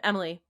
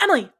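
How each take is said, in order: First: Level, unhurried calling of a name; gently getting a child's attention; calm teaching voice. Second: Sudden sharp call of a name; abrupt mock-alarmed parental shout; startled mom's cry. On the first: Retold or imitated. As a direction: address a child calmly, as a patient parent would. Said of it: "there wasn't a calm way of saying". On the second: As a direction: imitate an anxious mother stopping her child.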